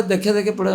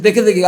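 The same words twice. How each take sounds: First: Said in the usual way. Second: Mildly surprised echo, higher; a touch of astonishment; incredulous question. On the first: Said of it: "বলে". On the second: Retold or imitated. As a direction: echo it back in mild disbelief. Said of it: "আমি বলছি".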